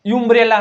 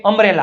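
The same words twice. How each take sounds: First: યુમ્બ્રેલા said as "yoombrella"; wrong "yu" start. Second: અમ્બ્રેલા opening on "um" as in "up"; correct "a" start. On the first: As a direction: put a false "you" at the start of યુમ્બ્રેલા. (યુમ્બ્રેલા, અ ને બદલે યુ) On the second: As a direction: begin અમ્બ્રેલા with a short "a". (અમ્બ્રેલા, શરૂઆતમાં અ) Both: Shown as a demonstration. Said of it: "કેમ આપણે યુમ્બ્રેલા નો થયું".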